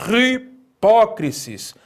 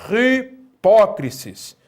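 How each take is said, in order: No difference in how they are said.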